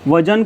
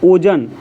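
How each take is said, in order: First: The word begins with a 'v' sound. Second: The word begins with an 'o' sound. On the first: This is the standard form. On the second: This is the regional dialect form.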